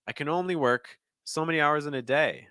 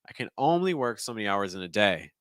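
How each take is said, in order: First: The second half is higher than the first. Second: The first half is higher, the second lower. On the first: "that time I went higher in the second thought group" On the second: "That's my higher pitch thought group. ... I'm gonna lower it a bit"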